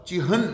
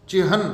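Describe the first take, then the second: Both takes have the same delivery.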